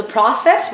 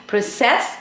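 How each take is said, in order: First: Process said PRO-cess, first syllable stressed; teacher contrasts noun process, PRO-cess. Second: Process said pro-CESS, second syllable stressed; teacher contrasts verb process, pro-CESS. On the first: Teacher contrasting noun and verb, first syllable stressed. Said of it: "process when it's used as a noun". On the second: Teacher contrasting noun and verb, second syllable stressed. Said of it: "process when it's used as a verb". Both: Shown as a demonstration.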